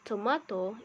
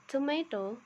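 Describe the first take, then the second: First: It is said with a British accent. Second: It is said with an American accent.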